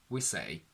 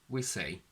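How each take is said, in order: No difference in how they are said.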